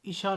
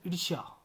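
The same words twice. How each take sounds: First: ईर्ष्या reduced to 'isha'; wrong pronunciation. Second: ईर्ष्या with r before 'shya'; correct pronunciation. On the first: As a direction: drop र and य from ईर्ष्या. (ईर्ष्या का गलत रूप, ईशा) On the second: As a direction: sound the र in ईर्ष्या, falling. (ईर्ष्या में र का साफ़ उच्चारण) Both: Shown as a demonstration. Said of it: "ईर्ष्या नहीं".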